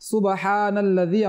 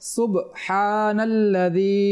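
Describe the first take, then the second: First: The b is followed by an added short vowel. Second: The b is closed with a short bouncing stop. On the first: The speaker calls it wrong. "আমরা যেন এটা না পড়ি, এটা ভুল রয়েছে" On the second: The speaker calls it right. "সাকিন রয়েছে, কলকলা হবে এটা"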